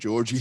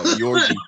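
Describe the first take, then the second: First: The name begins with a J sound. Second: The name begins with a Y sound. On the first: The speaker calls it wrong. "I've been calling him Georgie the whole time" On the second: The speaker calls it right. "but it's uh"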